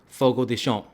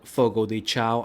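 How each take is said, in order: First: The name is said with Brazilian Portuguese sounds. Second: The name is said with English sounds. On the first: The speaker calls it right. "it is actually pronounced Fogo de Chão" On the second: The speaker calls it wrong. "I call it Fogo de Chao"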